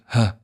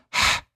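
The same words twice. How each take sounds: First: Ha with a light English h like hello; plain h as in hello. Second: Whispered, airy ha; ha with far too much breath; wrong breathy ha. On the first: Teacher showing the correct light ha. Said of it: "It's just ha". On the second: Teacher showing the breathy ha to avoid. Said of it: "It's not ha". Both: Shown as a demonstration.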